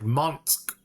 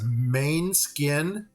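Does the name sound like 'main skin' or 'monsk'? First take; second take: monsk; main skin. First: The name is said like 'monsk'. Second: The name is said like 'main skin'. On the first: The speaker calls it right. "It's like Monsk or something like that" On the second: The speaker calls it wrong. "We read it as main skin, ... that is totally not the pronunciation of it"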